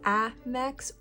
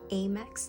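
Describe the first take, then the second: First: The first A is not a hard A. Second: The first A is a hard A.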